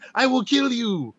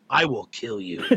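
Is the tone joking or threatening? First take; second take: joking; threatening. First: It is said in a light, playful tone. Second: It is said in a serious, menacing tone. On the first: The threat is not meant seriously. "clearly I was joking, because if you hear the tone of me saying" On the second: The threat seems meant seriously. "but to them it reads as"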